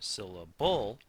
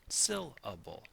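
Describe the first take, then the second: First: The stress falls on a later syllable. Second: The stress falls on the first syllable. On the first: The speaker calls it wrong. "not syllable or syllable" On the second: The speaker calls it right. "pronounced with an accent on the first"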